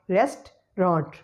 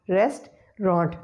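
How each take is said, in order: First: The word is said with two syllables. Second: The word is said with two syllables.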